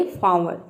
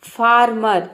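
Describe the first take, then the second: First: फार्मर as "faa-muh", no r; silent r. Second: फार्मर loud, both r's voiced; wrong pronunciation, r sounded. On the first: Teacher giving students the correct word, फार्मर without r. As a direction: drop the r's in फार्मर, long first aa. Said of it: "इसको बोलेंगे फार्मर". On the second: Teacher showing students the mistake, फार्मर with sounded r's. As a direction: say फार्मर as "faar-mar", r's audible. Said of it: "फार्मर नहीं". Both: Shown as a demonstration.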